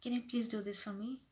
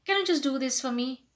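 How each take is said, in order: First: Soft, courteous request; humble, polite. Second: Casual, presumptuous request at full voice; too direct. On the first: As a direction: ask gently with a smile. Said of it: "just be little humble, little polite". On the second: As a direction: ask bluntly, expecting a yes. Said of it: "do not say directly". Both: Shown as a demonstration.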